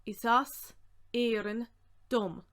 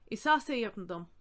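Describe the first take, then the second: First: Projected, piece by piece; deliberate, separated and firm. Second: Said in the usual way. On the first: Shown as a demonstration. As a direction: pause between the words for learners. Word-by-word teaching breakdown.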